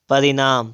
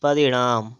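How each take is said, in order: First: परिणाम with a dental n; plain n in परिणाम; wrong pronunciation. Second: परिणाम with retroflex ṇ; tongue curled back in परिणाम; correct pronunciation. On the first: Teacher reading the error, परिणाम with dental n. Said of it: "परिणाम नहीं". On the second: Teacher correcting, परिणाम with retroflex ṇ. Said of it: "तो क्या हो जाएगा". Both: Shown as a demonstration.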